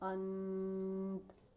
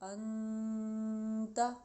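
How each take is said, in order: First: The word ends on a closed consonant. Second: The word ends with an open vowel.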